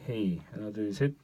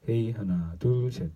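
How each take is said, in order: First: The voice sounds brighter, with boosted treble. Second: The voice sounds fuller, with stronger bass. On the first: "고음 부분이 약간 좀 부스터되어 있습니다" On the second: "이건 약간 저음이 잘 들어옵니다"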